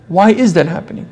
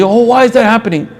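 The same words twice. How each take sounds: First: Quieter, pondering "why IS that"; reflective questioning. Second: Higher-pitched mock lament; mock-bewildered "oh, why" wail; surface-level complaint. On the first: Shown as a demonstration. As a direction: stress on IS, said softer than a lament. Same question asked reflectively. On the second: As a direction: imitate someone unthinkingly bemoaning events. People reacting without thinking.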